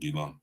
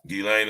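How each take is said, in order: First: The name ends with a 'lan' sound. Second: The name ends with a 'lane' sound. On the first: The speaker calls it right. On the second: The speaker calls it wrong.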